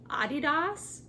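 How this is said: It is said the European way. This is how people abroad say it. "in other countries, they pronounce this brand Adidas"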